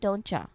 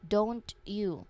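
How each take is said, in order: First: The T and Y merge into a CH sound. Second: A clear T is followed by a separate Y. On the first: "in natural quick speech, the sounds change dramatically and the phrase becomes don'tcha" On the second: "The full and distinct way to say this phrase"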